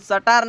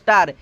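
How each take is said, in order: First: An extra vowel separates the s and t. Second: The s and t form one cluster. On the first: The speaker calls it wrong. "इसको हम सटार नहीं पढ़ते हैं" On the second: The speaker calls it right. "इसकी उच्चारण होगी है स्टार"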